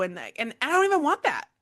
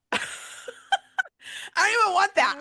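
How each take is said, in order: First: Said in the usual way. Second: Louder, higher, with stress on "don't"; emphatic repeat. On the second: Real, not acted. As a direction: push hard on "don't" the second time. Repeats the line with more emphasis.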